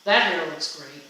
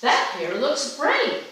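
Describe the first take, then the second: First: Straight, genuine praise; sincere compliment. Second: Slow, higher and rising on "great"; drawn-out admiring compliment. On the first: Speaker demonstrating tone of voice, sincere compliment. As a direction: say it like you mean it. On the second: Speaker demonstrating tone of voice, slow admiring compliment. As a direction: stretch "That hair looks great." up high and slow, admiring. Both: Shown as a demonstration. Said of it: "I'm gonna use the same words, but I'm gonna say two different things".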